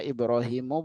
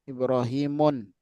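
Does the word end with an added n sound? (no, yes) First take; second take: no; yes. First: The word ends in a plain u vowel. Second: The word ends in u followed by n. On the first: The speaker calls it right. "makanya kita baca Ibrahimu" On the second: The speaker calls it wrong. "bukan Ibrahimun"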